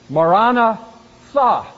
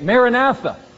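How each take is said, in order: First: It is said with the original Aramaic pronunciation. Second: It is said with an anglicized pronunciation. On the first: "It was literally pronounced Maranatha" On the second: "But we tend to say it Maranatha"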